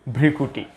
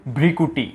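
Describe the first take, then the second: The two takes are said the same way.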